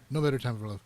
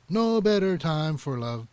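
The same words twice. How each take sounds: First: The phrase is compressed and rushed without pause. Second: There is a small pause within the phrase. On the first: The speaker calls it wrong. "it almost sounded a little bit compressed" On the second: The speaker calls it right. "I personally would have put like a little space in there"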